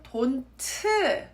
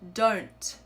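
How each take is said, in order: First: The final consonant becomes a whole extra syllable. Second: The final consonant ends with a tiny released sound. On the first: "pronounce it as a whole new syllable" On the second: "hear that sound?"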